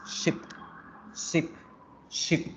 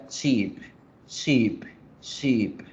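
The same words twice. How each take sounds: First: "ship" with a quick, relaxed i; short i. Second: "sheep" with a long, drawn-out ee; slow falling "sheep" with held vowel. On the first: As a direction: clip the vowel in each "ship". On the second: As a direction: stretch the vowel in each "sheep". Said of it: "la vocal larga". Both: Shown as a demonstration.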